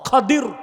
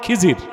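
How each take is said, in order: First: The name has an a vowel and d sound. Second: The name has an i vowel and z sound. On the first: The speaker calls it right. "বিফাতহিল খা ওয়া কাসরিদ দাদ" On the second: The speaker calls it wrong. "এটারে বক্তারা বলে খিজির"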